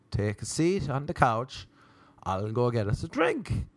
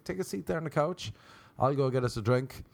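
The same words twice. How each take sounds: First: Deliberate, more emphatic offer; measured, word-by-word invitation; spelling it out. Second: Easygoing, thrown-away invitation; casual host offer. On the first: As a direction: repeat it carefully for someone who didn't catch it. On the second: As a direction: repeat it lightly, starting high. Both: Retold or imitated.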